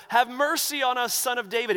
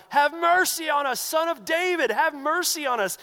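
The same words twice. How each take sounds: First: Yelling out. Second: Much higher, louder desperate cry; yell even louder. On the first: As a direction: call out to be heard over a crowd. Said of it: "these two blind men are yelling out". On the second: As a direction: shout over everyone, begging. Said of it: "yell even louder". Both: Retold or imitated.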